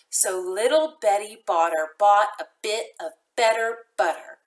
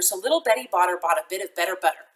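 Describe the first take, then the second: First: It is said slowly. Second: It is said very fast.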